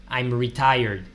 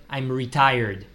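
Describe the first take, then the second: The two takes are said the same way.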